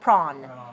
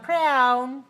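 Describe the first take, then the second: First: The vowel sounds like 'aw'. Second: The vowel sounds like 'ow'. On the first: The speaker calls it right. "It's aw" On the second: The speaker calls it wrong. "I see some of you going prawn, but it's not prawn"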